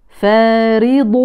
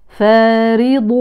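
The two takes are said the same way.

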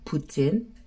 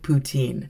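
First: The word is said with a French pronunciation. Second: The word is said with an English pronunciation. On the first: "It is actually pronounced poutine because it is, I believe, French" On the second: "I grew up calling it poutine"

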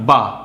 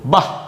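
First: The vowel ends plainly without any breathy release. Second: The vowel ends forcefully with a breathy h release. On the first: "বয় আকার কি হয়?" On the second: "বিসর্গ যেহেতু বসেছে সেহেতু জোর দিয়ে বলবো"

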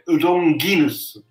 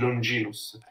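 First: The g is hard, as in go. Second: The g is soft, as in gem. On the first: This follows the classical Latin pronunciation. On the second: This follows the ecclesiastical pronunciation. "non di Longinus"

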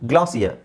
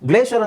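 First: The word is said the British English way. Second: The word is said the American English way. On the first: "British ಇಂಗ್ಲೀಷಲ್ಲಿ ಹೇಳ್ತಾರೆ" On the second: "American ಇಂಗ್ಲೀಷಲ್ಲಿ ಹೇಳ್ತಾರೆ"

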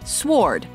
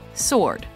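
First: A 'w' sound is heard after the 's'. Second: No 'w' sound is heard after the 's'. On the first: The speaker calls it wrong. "Common mispronunciation" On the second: The speaker calls it right. "Correct pronunciation"

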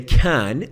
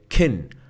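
First: The vowel in can is full and clear. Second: The vowel in can is short and reduced. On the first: The speaker calls it wrong. "I don't say can" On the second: The speaker calls it right. "I say can"

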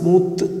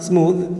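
First: The final sound is a hard t stop. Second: The final sound is a soft th fricative. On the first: The speaker calls it wrong. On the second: The speaker calls it right.

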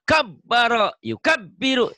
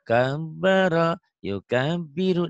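First: The syllables are pushed out forcefully and abruptly. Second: The syllables are read smoothly and gently. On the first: It is done this way for practice. "Yang dihentak-hentak ada tasjid disentak" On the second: It is the polished final reading. "dibuat lembut"

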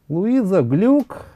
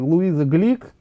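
First: The surname is said with a 'yu' vowel. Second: The surname is said with an 'i' vowel. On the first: This is the form that caught on in Russia. "а Глюк это э, прижилось и в России" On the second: This is how she is called in America. "Глик ее так называют, собственно говоря, в Америке"

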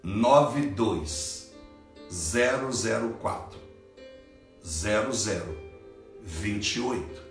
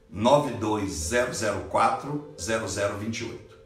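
First: The number is said more slowly. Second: The number is said at normal speed.

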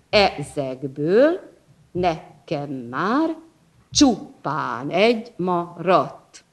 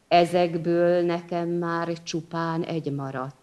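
First: It is read with a strong, regular metrical beat. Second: It is read plainly without a marked beat.

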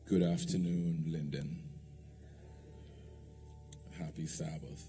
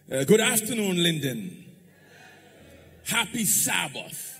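First: The greeting is said in a flat, weak tone. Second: The greeting is said in a lively, energetic tone. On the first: The speaker calls it wrong. "my tone was pathetic" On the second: The speaker calls it right. "let's see if you could try that again"

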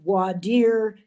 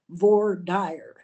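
First: It is said with the standard pronunciation. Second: It is said with a Texan regional pronunciation. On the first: The speaker calls it right. "It is properly pronounced the voir dire" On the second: The speaker calls it wrong. "in Texas, we call it the voir dire"

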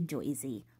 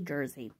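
First: The first syllable is said with an 'oy' vowel. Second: The first syllable is said with an 'er' vowel. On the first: This is how outsiders imagine locals say it. The speaker calls it wrong. "we do not say Joyzy" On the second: This is how locals actually say it. The speaker calls it right. "We say Jersey"

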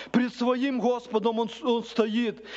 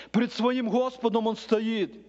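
The two takes are said the same way.

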